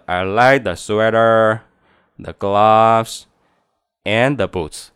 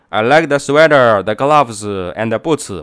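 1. 在 sweater 和 gloves 上，声音先升，然后降。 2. 在 sweater 和 gloves 上，声音不升。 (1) "你看降调and the boots" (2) "而不是说...不是这样子的"

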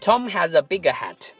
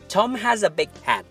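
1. 'big' 中的 g 是完全释放的。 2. 'big' 中的 g 是保持住的，没有释放。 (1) "如果你不会stops，你会把它说成" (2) "It should go this way，它应该是这样的"

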